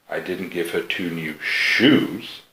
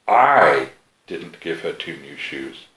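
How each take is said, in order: First: The word shoes carries the main stress. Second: The word I carries the main stress. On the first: She was given something other than shoes. "So you gave her two new something, but not shoes" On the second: Someone else gave them to her. "somebody did. It just wasn't you"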